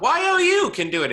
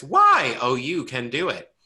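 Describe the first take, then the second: First: "Y O U" spelled letter by letter, much higher and louder, every letter punched; spelled out emphatically. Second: Said in the usual way. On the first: Shown as a demonstration. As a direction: stress each letter of "Y O U" as the wrong version. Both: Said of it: "I'm saying that like it's a question, but it's a fact".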